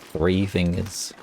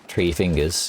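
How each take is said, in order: First: The first word begins with a TH sound. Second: The first word begins with a plain T sound. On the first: The speaker calls it right. "You're saying three fingers" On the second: The speaker calls it wrong. "You're not saying tree"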